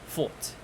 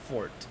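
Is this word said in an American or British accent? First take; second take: British; American. First: The r sound is silent after the vowel. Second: The r sound is clearly pronounced after the vowel. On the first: "British English would be pronounced as fort" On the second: "as for American English, you can see the R and it's pronounced as fort"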